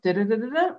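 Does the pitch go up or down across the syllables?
up. The pitch steps up across the syllables.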